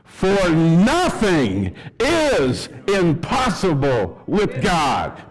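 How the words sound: It is read in a joyful, lively way.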